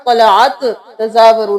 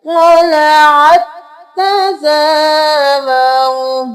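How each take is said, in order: First: "तलाअत तज़ावरू" spoken quickly as two separate words; separated reading. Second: "तलाअत तज़ावरू" chanted slowly, the t doubled; joined, chanted reading. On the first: Teacher showing the mistake to avoid, quick separated "तलाअत तज़ावरू". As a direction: say "तलाअत तज़ावरू" briskly without joining the t. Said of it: "नहीं करेंगे". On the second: Teacher joining ain to ta, "तलाअत तज़ावरू" slowly chanted. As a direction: chant "तलाअत तज़ावरू", closing ain straight onto a held t. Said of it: "आइन को इस ता के साथ मिलाएंगे". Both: Shown as a demonstration.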